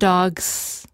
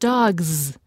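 First: The word ends with a hissing S sound. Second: The word ends with a buzzing Z sound. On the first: The speaker calls it wrong. "not dogs" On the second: The speaker calls it right. "which sounds like dogs"

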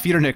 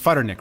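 First: The name begins with a P sound. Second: The name begins with an F sound. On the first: The speaker calls it wrong. "it's not Peter Nick Radio" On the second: The speaker calls it right. "It's Futter Nick Radio"

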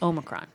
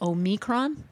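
First: The stress is on the first syllable. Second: The stress is on the middle syllable. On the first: This is how it is said in England. "in England" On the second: This is how it is said in Greek. "The Greek pronunciation puts the emphasis on the me, on the middle part"

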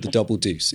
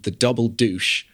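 First: The last word ends with an 's' sound. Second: The last word ends with an 'sh' sound. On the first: The speaker calls it right. "It's called the Double Deuce" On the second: The speaker calls it wrong. "as Sam Elliott pronounces it randomly in the middle of the film"

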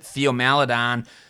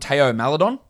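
First: The name is said with an American accent. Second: The name is said without an American accent.

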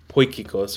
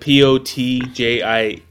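First: The first syllable is said like 'poy' without 't'. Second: The first syllable is said with a 't' sound. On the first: The speaker calls it right. "it's pronounced Poikikos" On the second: The speaker calls it wrong. "so is it Potjikos?"

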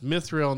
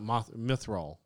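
First: The last syllable sounds like 'rill'. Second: The last syllable sounds like 'roll'. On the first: The speaker calls it right. "it's an I instead of an O" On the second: The speaker calls it wrong.

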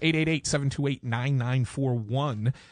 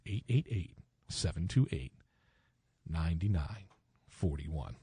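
First: The number is said fast. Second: The number is said slowly.

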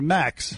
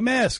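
First: The word ends with a k then s sound. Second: The word ends with an s then k sound. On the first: The speaker calls it wrong. "Do you say this? I'm going to wear a max" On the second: The speaker calls it right. "say mask. So you're able to say it"

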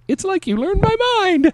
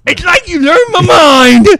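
First: It is read in his normal voice. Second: It is read in his announcer-style intro voice.

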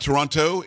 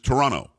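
First: The second t sound is clearly pronounced. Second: The second t sound is left out. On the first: The speaker calls it wrong. "It is not Toronto" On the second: The speaker calls it right. "you don't pronounce the second T"

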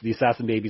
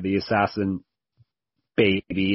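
First: It runs on with no pause before baby. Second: There is a short pause before baby. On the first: Baby is part of the nickname itself. The speaker calls it wrong. "is kind of weak" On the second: The speaker declares being the assassin. The speaker calls it right. "if you say it with the comma there"

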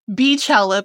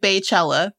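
First: The first syllable sounds like 'bee'. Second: The first syllable sounds like 'bay'. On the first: The speaker calls it right. "because her name is [name]" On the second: The speaker calls it wrong. "They're entitled to their wrong pronunciation"

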